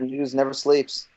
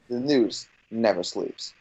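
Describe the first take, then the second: First: It is said casually, in passing. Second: It is said dramatically, with emphasis.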